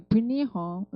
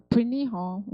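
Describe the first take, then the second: Both takes have the same delivery.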